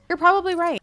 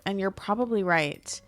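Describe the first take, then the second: First: Higher and louder, conceding with a dramatic flourish; emphatic high agreement. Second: Said in the usual way. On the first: Real, not acted. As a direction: give in loudly, like a playful defeated whine. Repeats agreeing with imagined viewers.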